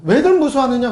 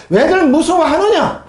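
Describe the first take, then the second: First: Said in the usual way. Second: Slow, louder 왜들 무서워하느냐 with weight on 왜들; emphatic question. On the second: Shown as a demonstration. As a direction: lean hard on 왜들 and drag the question out. Preacher stresses Jesus' question.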